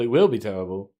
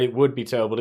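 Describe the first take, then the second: First: "will" leaned on, lower and firm; stress on will. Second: Said in the usual way. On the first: Shown as a demonstration. Correcting himself, insisting with weight on "will". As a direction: correct yourself by pressing "will".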